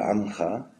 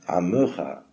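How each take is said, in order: First: No vowel is heard between the m and ch. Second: A short e is heard between m and ch. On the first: This is the common modern pronunciation. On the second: This follows the written vowel marks. "puisqu'il y a un dagesh, il faudrait dire am, Amecha"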